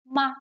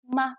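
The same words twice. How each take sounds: First: The syllable is light with a slight drop. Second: The same.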